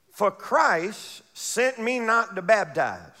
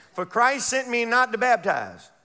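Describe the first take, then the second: First: Slow, stress on not; slow scripture reading. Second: Said in the usual way. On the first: Shown as a demonstration. Preacher reading the verse to the flock, slow with not stressed. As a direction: lean on not, read slowly. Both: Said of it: "scripture read".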